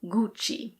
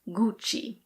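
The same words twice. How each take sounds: First: It is said with an Italian pronunciation. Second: It is said with an Italian pronunciation.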